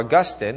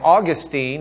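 First: The name is said the Catholic way. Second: The name is said the Lubbock Protestant way. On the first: How good Catholics pronounce the name. "if we're good Catholics pronouncing his name" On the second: The speaker's own regional Protestant habit. "I say Augustine because Protestants from Lubbock pronounce it that way"

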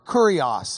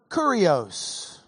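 First: It is said without a Texan drawl. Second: It is said with a Texan drawl.

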